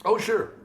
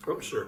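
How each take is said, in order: First: Much higher, bright eager agreement; eager yes. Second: Said in the usual way. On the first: Real, not acted. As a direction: jump at the offer. Eager reply to story request.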